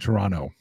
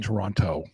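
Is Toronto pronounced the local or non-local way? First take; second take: local; non-local. First: It is pronounced the way locals say it. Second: It is pronounced the way non-locals say it. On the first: This is how residents say the city's name. The speaker calls it right. "We say Toronto" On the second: This is how outsiders say the city's name. The speaker calls it wrong. "We don't say Toronto"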